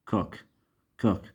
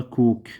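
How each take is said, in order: First: كوك with a short, lax vowel, like "kuhk"; irregular short vowel. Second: كوك with a long rounded "oo", like "kook"; wrong long vowel. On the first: Teacher corrects to the exception, short vowel in كوك. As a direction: keep كوك short, not "oo". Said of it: "هاي كلمات شاذة". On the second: Teacher shows students the mistake, long "oo" in كوك. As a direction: mispronounce كوك with a stretched "oo". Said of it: "ما نلفظ، ما نلفظها كوك". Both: Shown as a demonstration.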